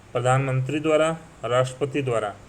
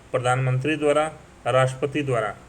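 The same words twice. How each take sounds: The two takes are said the same way.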